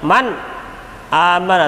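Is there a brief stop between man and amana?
yes. A brief stop separates man and amana. The speaker calls it wrong.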